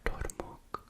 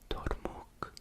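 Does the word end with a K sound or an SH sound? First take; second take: K sound; K sound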